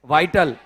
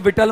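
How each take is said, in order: First: The first vowel is an 'eye' sound. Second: The first vowel is a short 'ih' sound. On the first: The speaker calls it right. "ये क्या है?" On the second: The speaker calls it wrong. "इसको विटल मत बोलना आप"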